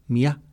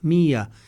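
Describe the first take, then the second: First: The stress is on the last syllable. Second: The stress is on the first syllable.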